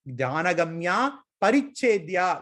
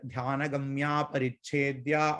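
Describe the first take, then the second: First: There is a pause between the two words. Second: The two words run together without a pause. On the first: She is limited. The speaker calls it wrong. "when we take a breath" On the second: She is beyond all limitation. The speaker calls it right. "We have to chant the two words together"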